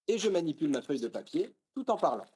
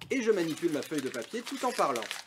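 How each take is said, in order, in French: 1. Le bruissement du papier est supprimé, il ne reste que la voix. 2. Le bruissement du papier s'entend clairement derrière la voix. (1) "Si l'on repasse de nouveau sur l'A B C deux mille cinq cents" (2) "cette fois avec un autre modèle de micro"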